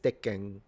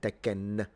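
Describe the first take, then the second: First: The final N is a nasalized hum. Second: The final N is a full, clear consonant. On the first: The speaker calls it right. "the N in Japanese is nasalized, always nasalized when it's at the end of a word" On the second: The speaker calls it wrong. "rather than Tekken"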